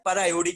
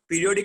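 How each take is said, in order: First: It begins with 'per', followed by 'iodic'. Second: It begins with 'peer', like the word periodic. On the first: The speaker calls it right. "ये होता है पर आयोडिक acid" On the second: The speaker calls it wrong. "पीरियोडिक नहीं होता है"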